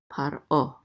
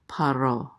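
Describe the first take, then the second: First: A glottal catch separates the two syllables. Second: The two syllables run together without a catch. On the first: The speaker calls it right. "this is actually at least a glottal stop" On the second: The speaker calls it wrong. "not paro"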